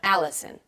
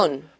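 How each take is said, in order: First: The stress is on the first syllable. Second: The stress is on the last syllable. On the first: The speaker calls it right. "Americans say my name Allison" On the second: The speaker calls it wrong. "They usually say Alison with an accent on the end"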